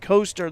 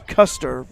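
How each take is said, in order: First: The first vowel sounds like 'oh'. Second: The first vowel sounds like 'uh'. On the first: The speaker calls it wrong. "I pronounced it Coaster the first time" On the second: The speaker calls it right. "but apparently it's Custer"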